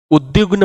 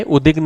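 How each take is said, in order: First: उद्विग्न said with a glide after d, like "ud-dyugna"; correct form. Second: उद्विग्न said "udigna", without the glide after d; wrong form. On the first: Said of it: "उद्विग्न होता है". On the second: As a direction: drop the v sound from उद्विग्न. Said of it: "उद्विग्न नहीं". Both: Shown as a demonstration.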